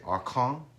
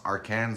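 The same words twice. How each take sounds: First: The name is pronounced the Quebec French way. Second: The name is pronounced the English way. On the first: The speaker calls it right. "if you go over to Quebec, they say Arcan or something like that" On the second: The speaker calls it wrong. "I can't even say it correctly myself"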